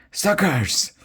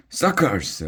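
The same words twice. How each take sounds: First: High, strange mocking shriek; shrieked taunt. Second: Shrieked taunt. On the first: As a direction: jeer like a different dragon twin. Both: A narrator's reading. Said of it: "Bilge and Margot shrieked".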